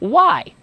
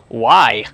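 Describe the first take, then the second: First: The word sounds curious and friendly. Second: The word sounds challenging and judging. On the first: The asker is genuinely interested. The speaker calls it right. "It's got to be more like this" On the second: The asker judges the person's choice. The speaker calls it wrong. "we don't want to tone of voice to challenge the person"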